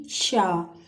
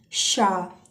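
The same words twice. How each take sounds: First: शा said once more, lower; teacher answering with शा; sh sound again. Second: शा with a long sh and open a; teacher modelling शा; sh sound demo. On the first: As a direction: give the answer शा clearly. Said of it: "यानी sound क्या बनी?". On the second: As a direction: sound out शा slowly. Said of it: "शा का sound आएगा". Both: Shown as a demonstration.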